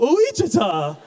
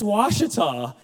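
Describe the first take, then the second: First: The name does not start with 'wash'. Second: The name starts with a 'wash' sound. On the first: The speaker calls it wrong. "He goes, no" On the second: The speaker calls it right. "It's wash, W, you pronounce it that way"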